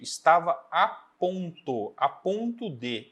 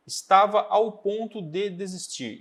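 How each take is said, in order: First: "a" set apart and stressed, then "ponto de" drawn out slowly; deliberate correction with a clear, separate "a" before "ponto". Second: Said in the usual way. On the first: Shown as a demonstration. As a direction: spell out "a ponto de" word by word, emphasising "a". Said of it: "essa é a expressão correta". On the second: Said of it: "e não a anterior".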